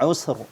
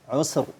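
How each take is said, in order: Both takes have the same delivery.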